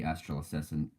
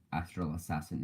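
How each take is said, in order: First: Said in the usual way. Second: "Astral Assassin" said again in a switched, slightly softer accent; changed accent. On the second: Shown as a demonstration. Naming his teammate a second time in a changed accent. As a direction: repeat "Astral Assassin" in an offhand put-on accent. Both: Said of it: "changed my accent for the second".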